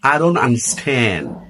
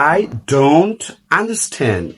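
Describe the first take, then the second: First: It is said quickly with the t dropped. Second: It is said slowly with a clear t.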